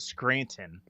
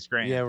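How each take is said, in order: First: The T is clearly pronounced. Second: The T is dropped. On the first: The speaker calls it wrong. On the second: The speaker calls it right. "Because we say"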